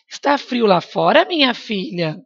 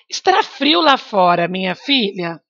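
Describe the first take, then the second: First: It is said as a question, rising. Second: It is said as a statement, falling.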